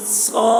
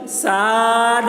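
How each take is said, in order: First: صاد called out thick and hard; correct pronunciation. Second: ساد said with a light plain s; wrong pronunciation. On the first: Teacher calls out the correct heavy صاد to students. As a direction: give the proper heavy صاد. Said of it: "ایسے بولیں گے". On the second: Teacher shows students the mistaken ساد, light. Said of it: "اگر بولے تو یہ غلط ہے". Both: Shown as a demonstration.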